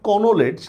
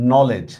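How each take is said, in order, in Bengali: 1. শুরুতে একটি k ধ্বনি উচ্চারিত হয়। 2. শুরুতে কোনো k ধ্বনি উচ্চারিত হয় না। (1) "আমরা বানান লিখতেছি কনোলেজ" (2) "উচ্চারণ করার সময় কিন্তু করতেছি হচ্ছে নলেজ"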